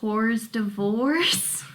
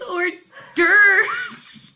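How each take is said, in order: First: The second part sounds like 'divorce'. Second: The second part sounds like 'durves'. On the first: The speaker calls it wrong. "when I see it spelled, I always go hors divorce" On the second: The speaker calls it right. "And David's like, it's hors d'oeuvres"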